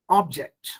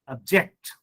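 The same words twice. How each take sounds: First: "object" stressed on OB, as a noun; first-syllable stress. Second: "object" stressed on JECT, as a verb; light start, then hit JECT in "object"; second-syllable stress. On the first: Teacher showing students the noun, "object" stressed on OB. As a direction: punch the OB of "object". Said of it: "give stress on ob". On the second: Teacher showing students the verb, "object" stressed on JECT. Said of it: "shift the stress on the second syllable". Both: Shown as a demonstration.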